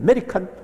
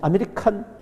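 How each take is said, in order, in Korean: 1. 첫 모음이 빠지고 'me'에 강세가 있습니다. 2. 모든 음절을 한국식으로 고르게 발음합니다. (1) "영어로 하면은 … 아가 묵음이 되다 보니까 매 강세가" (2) "우리식으로 정확하게 하면"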